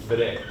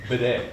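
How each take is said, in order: No difference in how they are said.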